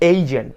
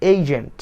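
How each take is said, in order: The two takes are said the same way.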